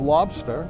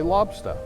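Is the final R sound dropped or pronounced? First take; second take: pronounced; dropped. First: The word ends with a pronounced R sound. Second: The R is dropped and the word ends in 'a'. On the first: "instead of lobster" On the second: "we tend to leave off the R and change it to an A"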